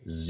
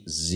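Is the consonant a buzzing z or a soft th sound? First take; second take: z; z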